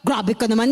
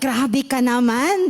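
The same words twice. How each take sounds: First: It sounds angry and reproachful. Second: It sounds admiring and positive. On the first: The listener is being scolded. The speaker calls it wrong. "hindi yung grabe ka naman, hindi galit" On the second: The listener has truly achieved something great. The speaker calls it right. "parang meron na siyang first one million"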